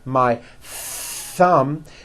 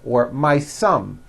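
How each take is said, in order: First: Thumb begins with a th sound. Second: Thumb begins with an s sound. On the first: The speaker calls it right. "notice how my tongue is coming out" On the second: The speaker calls it wrong. "your tongue is not coming out"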